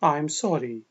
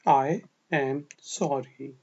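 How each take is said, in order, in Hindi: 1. "I am" को एक तेज़ अक्षर में छोटा कर दिया जाता है। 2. "I am" को दो पूरे शब्दों की तरह बोला जाता है। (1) "जल्दी में हम इसको आई एम पढ़ेंगे" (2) "मैं माफ़ी चाहता हूँ"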